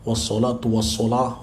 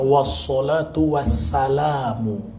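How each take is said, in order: First: The second word ends with the sound 'salah'. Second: The second word ends with the sound 'salamu'. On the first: The speaker calls it wrong. "suka salahnya di sini" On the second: The speaker calls it right. "yang betul kan wassalatu wassalamu"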